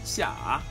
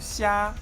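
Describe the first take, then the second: First: The pitch dips low then rises. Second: The pitch stays high and level.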